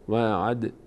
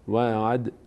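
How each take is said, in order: No difference in how they are said.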